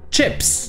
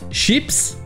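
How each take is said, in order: First: The word begins with a 'tch' sound. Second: The word begins with a soft 'sh' sound. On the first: This is the English pronunciation. "mais en anglais c'est bien avec le son ch" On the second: This is the French pronunciation. "en français on prononce ça avec le son ch"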